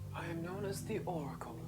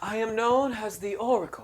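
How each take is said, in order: First: It is said quietly. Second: It is said loudly.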